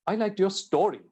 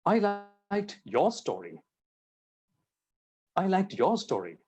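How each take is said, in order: First: "story" stressed for contrast, falling at the end; emphatic "story", as opposed to the other article. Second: "your" stressed for contrast, rest of the sentence lighter; emphatic "your", falling away on "story". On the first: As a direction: land hard on the last word, "story". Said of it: "I liked the story. By emphasizing". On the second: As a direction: hit "your" hard, as opposed to somebody else's. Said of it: "I did not like somebody else's story". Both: Shown as a demonstration.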